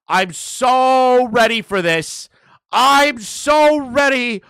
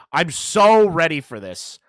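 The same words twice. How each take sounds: First: Higher, louder, slower gloat; gloating yell. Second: Gloating. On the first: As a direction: yell it out, drawn out. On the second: Gloating build. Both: Real, not acted.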